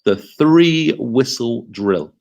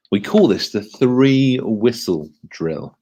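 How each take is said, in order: First: Very slow, three whistle drill with weight on three; slow model phrase. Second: Slow, deliberate naming of three whistle drill; spelled out slowly. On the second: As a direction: lay out each word of three whistle drill for the class. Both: Shown as a demonstration. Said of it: "Can you say that to the person next to you".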